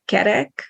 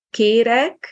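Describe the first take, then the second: First: Kerek with both e vowels short and open; don't lengthen the first vowel of kerek. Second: Kérek with first vowel long and close. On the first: Teacher explains word for round, short e. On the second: Teacher explains word for asking, long é. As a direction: hold the é of Kérek, "kay-rek". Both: Shown as a demonstration. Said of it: "difference between e and e".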